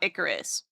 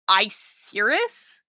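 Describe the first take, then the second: First: It is said like the name Icarus. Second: It is said with an 'ir' sound in the middle. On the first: This is how the spelling looks. "the one that looks like uh Icarus" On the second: This is how the anime says it. "the anime pronounces it Icirus"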